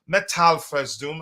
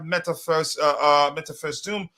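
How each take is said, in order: First: Metal said slowly with its L; slow, careful correction to Metal; corrected name. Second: Meta said without a final L; unsure first go at Meta First Doom; hesitant misreading. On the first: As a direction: sound out Metal, L included. Corrects the misread screen name. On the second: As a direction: stumble over Meta, reading it as "met-a". Stumbles reading a viewer's screen name. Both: Real, not acted.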